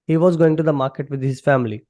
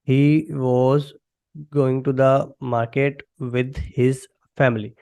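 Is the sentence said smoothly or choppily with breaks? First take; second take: smoothly; choppily. First: The sentence flows smoothly without breaks. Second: The sentence is broken up by hesitant pauses. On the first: The speaker calls it right. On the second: The speaker calls it wrong.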